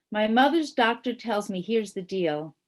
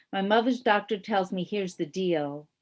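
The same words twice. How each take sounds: Both takes have the same delivery.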